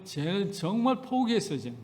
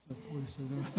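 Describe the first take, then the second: First: Said in the usual way. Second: Quiet aside. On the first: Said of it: "joking resigned repeat". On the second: Real, not acted. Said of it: "quiet aside repeat".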